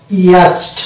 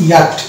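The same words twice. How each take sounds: First: ইয়াচড said as wrong spelling-pronunciation, ch and t sounded; wrong pronunciation demo. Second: ইয়াট said with silent ch, no চ sound; correct pronunciation. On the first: Teacher showing students the wrong ইয়াচড reading. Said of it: "যদি শব্দটাকে আমরা ইয়াচড উচ্চারণ করি". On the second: Teacher giving students the correct ইয়াট. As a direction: say ইয়াট, dropping the ch. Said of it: "এর actual উচ্চারণ হচ্ছে". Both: Shown as a demonstration.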